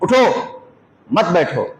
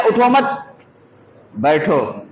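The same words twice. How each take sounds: First: उठो alone, a pause, मत बैठो joined; मत बैठो grouped after a clear pause. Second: उठो मत joined, a pause, then बैठो low; pause after मत. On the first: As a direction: break after उठो so it orders standing. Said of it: "खड़े होने की बात कर रहे हैं". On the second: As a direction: break after मत so it orders sitting. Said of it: "किसी ने ऐसा पढ़ लिया". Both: Shown as a demonstration.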